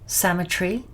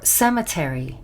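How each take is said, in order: First: The word is said with a British pronunciation. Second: The word is said with an American pronunciation. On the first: "This is the U K pronunciation" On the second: "That's the U S pronunciation"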